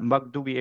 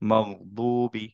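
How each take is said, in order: First: The gh sound is cut off quickly. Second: The gh sound is held for a moment. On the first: The speaker calls it wrong. "এভাবে পড়বো না" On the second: The speaker calls it right. "একটুক্ষণ ধরে রেখে তারপর মগবুবি"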